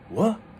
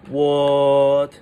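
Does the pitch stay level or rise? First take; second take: rising; level. First: The pitch rises from lower to higher. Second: The pitch stays high and level. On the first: The speaker is suspicious about something. "the second tone is kind of like suspicious" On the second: The speaker is surprised but acting nonchalant. "that's the first tone"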